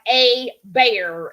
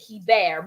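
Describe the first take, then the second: First: The name starts with an 'ay' sound. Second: The name starts with a 'he' sound. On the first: Families from Louisiana pronounce it this way. "they're like a bear" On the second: The family from Canada pronounces it this way. "more of a he than a a sound"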